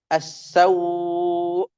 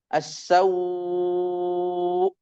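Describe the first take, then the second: First: The vowel before the hamza is held four beats. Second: The vowel before the hamza is held six beats. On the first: "tawassud empat harokat" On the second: "tul enam harokat"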